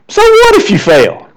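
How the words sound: It sounds like a dismissive, defiant shrug. Failing does not matter much. "a little bit more like this"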